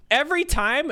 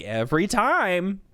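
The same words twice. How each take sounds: First: High, loud disbelieving rise on "Every time"; horrified question. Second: "Every time" said slowly, falling and matter-of-fact; flat confirmation. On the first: Coworker learning the routine, high and appalled. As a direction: push "Every time" way up in horror. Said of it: "shock, confusion, and horror". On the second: Speaker answering the coworker, slow and deadpan. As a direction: settle "Every time" down, plain and sure. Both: Retold or imitated.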